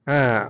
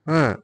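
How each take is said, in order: No difference in how they are said.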